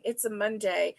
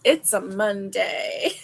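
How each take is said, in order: First: A light, softer hint of a gruff voice; mild gruff imitation, said quietly; gruff commercial lady. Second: Words through real laughter; laughing while saying it. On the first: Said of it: "with her gruff voice". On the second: Real, not acted. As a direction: giggle it out, slower. Laughing at her own joke.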